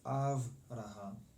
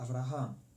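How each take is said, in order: First: The stress is not on the last syllable. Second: The stress is on the last syllable. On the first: The speaker calls it wrong. "as opposed to" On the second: The speaker calls it right. "make sure the accent is on the last syllable"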